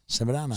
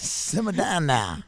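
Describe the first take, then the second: First: The phrase is said at a faster pace. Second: The phrase is said at a slower pace.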